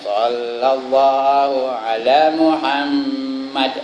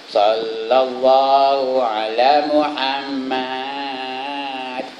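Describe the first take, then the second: First: The vowel is kept short. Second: The vowel is stretched out long. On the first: The speaker calls it wrong. "Patutnya pendek aja" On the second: The speaker calls it right. "Panjang ke matnya tu"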